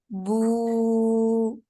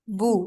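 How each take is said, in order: First: The vowel is long and stretched out. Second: The vowel is short and clipped.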